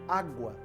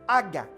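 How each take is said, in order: First: The word is said clearly in a normal adult voice. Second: The word is said like a small child's babble. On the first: An adult understands what the child wants. The speaker calls it right. "O que, é que ele está pedindo?" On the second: A small child is trying to ask for water. The speaker calls it wrong. "a gente não fala errado?"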